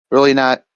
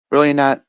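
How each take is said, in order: Both takes have the same delivery.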